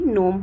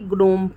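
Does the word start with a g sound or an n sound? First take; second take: n sound; g sound. First: The word begins with an n sound. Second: The word begins with a g sound before n. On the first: The speaker calls it right. "यहाँ पे भी नोम हो रहा है" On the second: The speaker calls it wrong. "ऐसा नहीं हो रहा है कि ग्नोम पढ़ रहे हैं"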